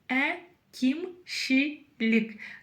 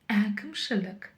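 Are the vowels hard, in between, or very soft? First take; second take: very soft; in between. First: The vowels are very soft, like Russian 'и'. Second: The vowels are between hard and soft. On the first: The speaker calls it wrong. "Пробуем прочитать через «и». чересчур мягко и даже приторно" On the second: The speaker calls it right. "А вот палочка с точкой именно та мягкость, которая нам необходима"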